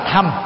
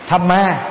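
First: The final vowel is dropped. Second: The final vowel is sounded. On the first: "đọc chuẩn là Tham" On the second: "Thamma là đọc theo tiếng Anh"

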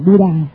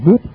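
First: The word ends with a final a vowel. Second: The word ends on a consonant, no final vowel. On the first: This is the usual local way of saying it. "chúng ta đọc là Buddha" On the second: This is how Indian speakers say it. "người Ấn Độ đọc là Bút"

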